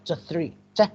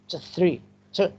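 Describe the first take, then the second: No difference in how they are said.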